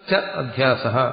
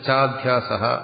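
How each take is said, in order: First: Two short 'a' vowels are said separately. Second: The vowels merge into one long 'aa'. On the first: The words are split into their parts. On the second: The sandhi form is read as written.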